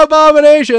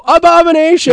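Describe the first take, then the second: First: High loud whole crowd shouting; the full crowd roaring the name; imitating a roaring crowd; crowd yell. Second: High shouted crowd response; imitating a few fans yelling. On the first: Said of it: "they all go". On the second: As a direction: scream the band name back. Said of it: "five or ten people go".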